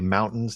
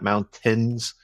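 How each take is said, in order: First: The middle T is dropped or swallowed. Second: The middle T is clearly pronounced. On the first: This is how people from the region say it. "Utahns don't pronounce their T's ... you say mountains" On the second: This is how people elsewhere say it. "not mountains"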